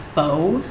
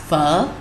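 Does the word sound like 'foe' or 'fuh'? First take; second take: foe; fuh. First: The vowel is a long 'oh' sound. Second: The vowel is a short 'uh' sound. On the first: The speaker calls it wrong. "Most of you probably pronounce it as pho. It's spelled P H O. It is not pronounced like that" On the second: The speaker calls it right. "think you're saying the F word and then stop before the K"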